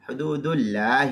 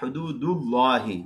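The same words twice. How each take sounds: First: The L of Allah is light and thin. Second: The L of Allah is heavy and full. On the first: The speaker calls it wrong. "तो ये अल्लाह का लाम बारीक पढ़ दिया" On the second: The speaker calls it right. "ये अल्लाह का लामपुर होगा"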